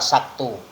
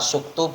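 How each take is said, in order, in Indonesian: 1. Vokal pertama adalah bunyi a. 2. Vokal pertama adalah bunyi u.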